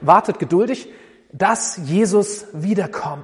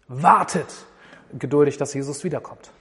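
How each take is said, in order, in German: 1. Die Betonung liegt auf dem Wort wiederkommt. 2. Die Betonung liegt auf dem Wort wartet. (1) "Oder das, worauf wir warten, dass Jesus wiederkommt" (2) "Man kann das Warten betonen"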